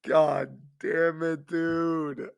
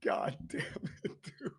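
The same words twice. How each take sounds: First: Drawn out slowly while still laughing; slow laughing groan. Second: Whispered through helpless laughter; can barely get the words out for laughing; breathless laugh. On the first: Host cracking up over the Pistons, slow laughing moan. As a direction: stretch it out through the giggles. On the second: Host cracking up over the Pistons, wheezing it out breathlessly. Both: Real, not acted. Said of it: "I can't stop laughing".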